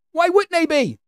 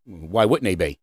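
First: Put-on high-pitched, disbelieving echo of the kid; mocking high-voiced retort; incredulous mock repeat. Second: Put-on low, unbothered kid behind the counter; mock drive-thru worker's low reply. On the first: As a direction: throw it back way up high. Mocking repeat of the kid's reply. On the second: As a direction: drop it low as a clueless employee. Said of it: "the kid looks at you and he says".

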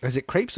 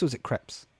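First: "crepes" with a long A, like capes. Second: "crepes" with a short E, like steps. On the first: Host asking how it's pronounced, long-A "crepes". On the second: Host asking how it's pronounced, short-E "crepes". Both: Shown as a demonstration.

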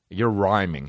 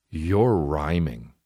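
First: Said in the usual way. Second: Slow mocking drawl. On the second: Shown as a demonstration. Mocking the grown man who raps, slow. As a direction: stretch it out slowly, mocking.

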